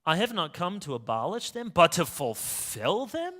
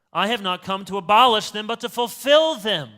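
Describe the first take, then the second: First: Puzzled rereading. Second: Loud, ringing declaration, stress on abolish and fulfill; grand proclamation. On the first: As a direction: turn the words over as if they sound odd. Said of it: "this fulfillment language, isn't that strange?". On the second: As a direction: proclaim it like a solemn pronouncement. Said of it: "Who talks like this?". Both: Retold or imitated.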